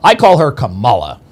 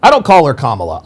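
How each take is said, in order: First: "Kamala" said kuh-MAH-luh, middle syllable stressed; "Kamala" with the weight on MAH. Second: "Kamala" said KAH-muh-luh, first syllable stressed; "Kamala" with the weight up front on KAH. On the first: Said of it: "that's the way you pronounce". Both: Shown as a demonstration.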